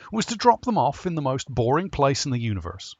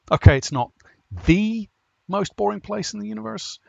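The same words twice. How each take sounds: First: Said in the usual way. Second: "the" said as a long "thee", pitched high; stress on "the". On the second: Acted. Narrator correcting an overstatement about the planet, stress on "the". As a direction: lean hard on "the" as "thee", then keep the pitch up.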